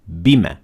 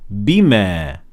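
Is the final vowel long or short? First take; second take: short; long. First: The final vowel is short and not extended. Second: The final vowel is held for two counts. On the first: "without any mad" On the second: "extend it for two harakat"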